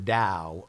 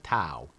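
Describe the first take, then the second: First: The word begins with a D sound. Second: The word begins with a T sound. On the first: The speaker calls it right. "I don't know why they don't spell that word D A W" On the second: The speaker calls it wrong. "nobody pronounces it the Tao"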